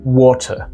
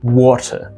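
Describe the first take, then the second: The two takes are said the same way.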